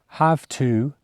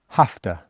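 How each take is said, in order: First: Both words are said fully and separately. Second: The words blend into a shortened form. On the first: "Have to gets shortened to" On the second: "gets shortened to have to"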